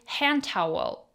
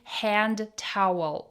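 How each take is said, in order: First: The D in hand is silent. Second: The D in hand is clearly pronounced. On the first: The speaker calls it right. "We say hand towel. We have silent D and soft T" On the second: The speaker calls it wrong. "We don't say hand towel"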